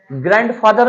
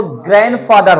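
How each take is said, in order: First: ग्रैंडफादर with the d fully sounded; ग्रैंडफादर spoken as spelled, "grand-father"; ग्रैंडफादर with a hard d; wrong way to say grandfather. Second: ग्रैंडफादर with the d dropped, like "granfather"; ग्रैंडफादर with the d silent; correct grandfather. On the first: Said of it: "ग्रैंडफादर नहीं होता". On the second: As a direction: say ग्रैंडफादर as "gran-father". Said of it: "वो ग्रैंडफादर होता है". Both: Shown as a demonstration.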